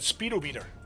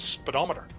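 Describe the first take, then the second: First: It sounds like 'speed' plus 'meter'. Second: It sounds like 'thermometer', stressed on 'dom'. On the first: The speaker calls it wrong. "because that's how you you write it down" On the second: The speaker calls it right. "they pronounce it literally as speedometer"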